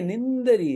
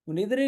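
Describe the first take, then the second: First: The word has a nasal n before d. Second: The word has no nasal sound before d. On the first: The line keeps its full count of beats. The speaker calls it right. "निंदरी है" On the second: The line loses one beat. The speaker calls it wrong. "निद्री नहीं है"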